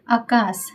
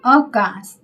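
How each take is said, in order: First: आकाश begun with long open "aa"; correct long AA. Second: आकाश begun with short "a", as "akaas"; wrong short A. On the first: Teacher giving the correct word, आकाश with long first vowel. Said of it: "आकाश शुद्ध है". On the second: Teacher demonstrating a spelling error, आकाश with short first vowel. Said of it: "तो ये अशुद्ध है". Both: Shown as a demonstration.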